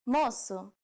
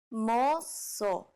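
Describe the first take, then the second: First: Said in the usual way. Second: "Moço" drawn out in two syllables; slow demonstration. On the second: Shown as a demonstration. Teacher showing learners the word for boy, slowly. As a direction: stretch each syllable of "Moço".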